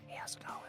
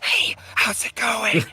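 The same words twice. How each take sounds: First: It is said gently, without a harsh whisper. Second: It is said in a harsh, strained whisper.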